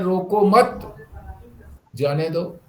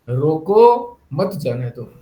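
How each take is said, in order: First: The pause comes right after मत. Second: The pause comes right after रोको.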